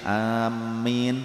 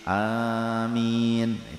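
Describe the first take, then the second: First: The m sound is held long and doubled. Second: The m sound is short and single. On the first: "boleh mimnya pakai tasydid" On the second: "yang ashah tanpa tasydid"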